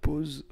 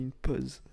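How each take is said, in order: First: "pause" louder, with a closed O, like "pohz"; loud careful closed-O "pause"; standard closed O. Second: "pause" with an open O, like "pozz"; accented open-O "pause"; own accent. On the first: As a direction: round the vowel firmly in "pause". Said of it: "Tu vois, pas pause". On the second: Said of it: "Moi, je dis une pause". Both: Shown as a demonstration.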